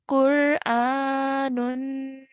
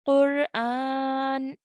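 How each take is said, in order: First: The word ends with an added -un sound. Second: The word ends on a bare n consonant. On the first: The reciter continues without stopping. "on its own without stopping will be Qur'anun" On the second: The reciter pauses after this word. "if you want to pause, will change into Qur'an"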